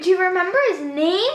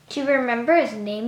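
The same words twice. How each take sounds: First: The voice sounds excited and lively. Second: The voice sounds flat, not excited.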